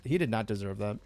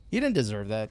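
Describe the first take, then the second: First: Softer, with "not" pressed firmly; hushed "did not" spelled out; stress on not. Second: Said in the usual way. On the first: Real, not acted. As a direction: lean into the word "not", quietly. Restated about the killed Festus.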